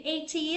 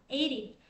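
First: It is said without an American accent. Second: It is said with an American accent.

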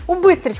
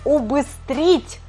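First: The stress is on the second syllable. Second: The stress is on the third syllable. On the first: The speaker calls it wrong. "хочется сказать" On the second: The speaker calls it right. "а правильно будет «убыстрить» на букву «и»"

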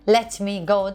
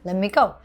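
First: The t in let is clearly pronounced. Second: The t in let is dropped. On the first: The speaker calls it wrong. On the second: The speaker calls it right.

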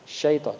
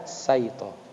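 First: The word begins with an sh sound. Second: The word begins with a plain s sound. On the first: The speaker calls it right. "Nah, syaita" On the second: The speaker calls it wrong. "jangan dibaca saito"

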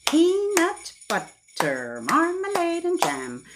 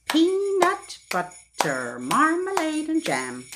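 No difference in how they are said.

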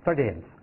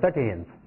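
First: The second syllable is weak and blurred. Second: The same.

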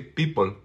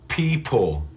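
First: The P is said without a puff of air. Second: The P is said with a puff of air. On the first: The speaker calls it wrong. "I don't say people. No" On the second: The speaker calls it right. "the P is aspirated"

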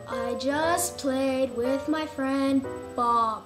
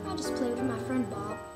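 First: The sentence is said at a loud volume. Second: The sentence is said at a quiet volume.

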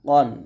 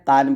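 First: The vowel sounds like a rounded 'o'. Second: The vowel sounds like an open 'a'. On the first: The speaker calls it right. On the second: The speaker calls it wrong. "এখানে কান বলবেন না"

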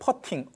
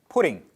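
First: The first vowel sounds like the 'u' in 'putt'. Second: The first vowel sounds like the 'u' in 'put'. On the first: It means tapping a golf ball. The speaker calls it wrong. "골프할 때 퍼팅 발음을 하시면 안 됩니다" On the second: It means placing something. The speaker calls it right. "put 놓다라는 동사인 put, putting 발음을 하셔야 돼요"

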